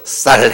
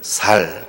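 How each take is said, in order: First: The first consonant is a tense s. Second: The first consonant is a plain s. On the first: The speaker calls it right. "쌀 해봐" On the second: The speaker calls it wrong. "그러면은 살 그래요"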